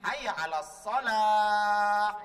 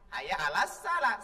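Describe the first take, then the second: First: The last word starts with a heavy, emphatic s. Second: The last word starts with a plain, light s. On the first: The speaker calls it right. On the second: The speaker calls it wrong. "kan memang salah"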